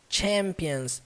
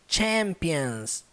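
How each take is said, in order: First: The word begins with a forceful ch sound. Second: The word begins with a forceful ch sound.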